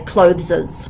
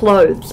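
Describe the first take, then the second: First: The word has an extra final syllable. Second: The word is a single syllable. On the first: The speaker calls it wrong. "A lot of international students say clotheses" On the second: The speaker calls it right. "you pronounced clothes correctly"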